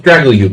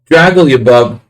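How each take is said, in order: First: The name ends without the extra syllable. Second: The name has an extra syllable at the end. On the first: The speaker calls it right. "Just Dragalyub. I'm adding an extra syllable" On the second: The speaker calls it wrong. "I always mispronounce this"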